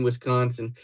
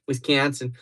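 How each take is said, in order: First: Said in the usual way. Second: Wisconsin said with flattened "kan" in a Midwest accent; exaggerated Midwestern vowel in Wisconsin; put-on Wisconsin accent. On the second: Shown as a demonstration. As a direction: switch to a mock Wisconsin accent. Repeats the name in practised accent.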